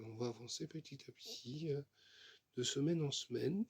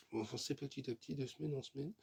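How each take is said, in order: First: Said in the usual way. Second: Talking with a sore bitten tongue; words blurred by a bitten tongue. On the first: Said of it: "Je me suis mordu la langue". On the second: Real, not acted. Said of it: "Je me suis mordu la langue, ça fait mal". (langue mordue, parole gênée)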